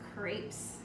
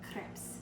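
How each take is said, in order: First: It has a drawn-out Southern American vowel. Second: It has a short French-style vowel. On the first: The speaker calls it wrong. "We do tend to dwell on the vowels when we say words here in the South" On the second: The speaker calls it right. "in France or in French, these are called crepes"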